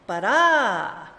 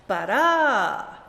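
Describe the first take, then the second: No difference in how they are said.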